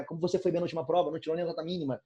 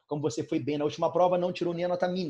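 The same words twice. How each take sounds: First: Teacher showing irony with a sarcastic compliment; ironic. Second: Said in the usual way. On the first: Shown as a demonstration. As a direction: rush the fake praise, then let it sink. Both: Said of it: "eu tô sendo irônico".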